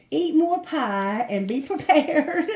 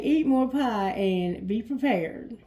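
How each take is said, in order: First: Playful, louder and slowed down; best friend's teasing tip, slow and loud; best friend's advice. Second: Said in the usual way. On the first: Acted. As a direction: deliver it as the cheeky best friend, slowly. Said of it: "Best friend, what message do you have".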